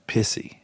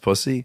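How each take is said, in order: First: The first vowel sounds like the one in 'piss'. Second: The first vowel sounds like the one in 'puss'. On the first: This is how one older man says the word. "He said he always pronounced it pissy" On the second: This is the usual way of saying the word. "that's how he pronounces pussy"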